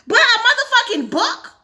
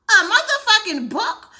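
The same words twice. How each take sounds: First: Loud and high, disbelieving question; can't believe what they just saw; incredulous. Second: Slow, laughing repeat of the question; laughing disbelief. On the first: Gamer stunned the book was burned, loud disbelief. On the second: Gamer repeating the outrage, now laughing slowly. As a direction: let the outrage turn into a laugh. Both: Real, not acted.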